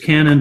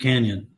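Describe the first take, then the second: First: It is said like the word 'canon'. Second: It is said like the word 'canyon'. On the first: "it is Canon" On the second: "but it's pronounced Canyon"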